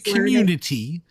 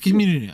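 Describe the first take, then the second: First: The word is said with every sound clear. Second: The word is slurred with sounds dropped. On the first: The speaker calls it right. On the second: The speaker calls it wrong.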